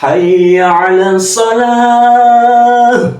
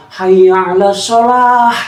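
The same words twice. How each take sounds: First: Hayya 'alas shalah chanted slow and loud with a clear ha at the end; sung, call to prayer. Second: Hayya 'alas shalah chanted with the final ha dropped; wrong azan. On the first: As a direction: chant it like the azan, holding shalah. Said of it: "Contohnya begini". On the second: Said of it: "Ya itu salah". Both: Shown as a demonstration.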